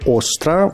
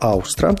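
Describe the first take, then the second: First: The name starts with a plain 'o' sound. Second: The name starts with an 'au' sound. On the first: Some people say it this way. "некоторые называют ее «Остра»" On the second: It follows the Latvian goddess's name. "я как-то предпочитаю «Аустра»"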